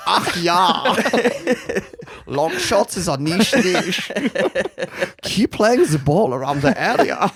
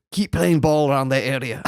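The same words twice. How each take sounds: First: Loud, slow, hammed-up German accent; absurdly Germanic team talk, pitched up; mock Eurogay accent. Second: Lightly attempted Scottish manager accent; rough Scottish accent, half laughing; Alex Ferguson. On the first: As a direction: exaggerate a camp German football manager. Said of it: "the Euro game was, was creeping into". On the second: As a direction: have a go at a Scottish team talk.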